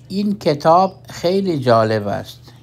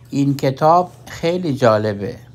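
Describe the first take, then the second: First: The sentence ends with a full 'ast'. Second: The sentence ends with a short 'e'. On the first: It is the formal form. "این شد جمله رسمی" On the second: It is the everyday Iranian form. "با لهجه ایرانی میگیم"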